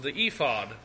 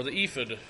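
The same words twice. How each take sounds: First: "ephod" with long ee and a clear fod. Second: "ephod" with long ee and a reduced fid. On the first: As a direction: say "ephod" as EE-fod, full second vowel. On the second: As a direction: say "ephod" as EE-fid, weak second vowel. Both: Shown as a demonstration. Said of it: "Not sure how you say it".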